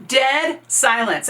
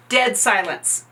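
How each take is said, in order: First: "Dead silence." said slowly and higher, each word weighted; "Dead silence." drawn out for drama; slow dramatic repeat. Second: Said in the usual way. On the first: Shown as a demonstration. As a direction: stretch out "Dead silence." to let it sink in.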